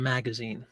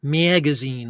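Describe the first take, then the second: First: Said in the usual way. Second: "Magazine" with a fronted A, like "mee-agazine"; lazy Midwest A. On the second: Shown as a demonstration. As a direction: stretch the first A of "Magazine" Midwest style. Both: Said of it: "instead of magazine".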